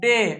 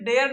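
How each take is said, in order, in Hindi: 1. शब्द सादे 'ay' स्वर पर खत्म होता है। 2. शब्द के अंत में 'ar' की आवाज़ है। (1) "तो क्या डेयर नहीं, क्या डे" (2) "तो आपको आज से डेयर नहीं पढ़ना"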